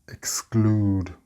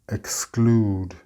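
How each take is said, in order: The two takes are said the same way.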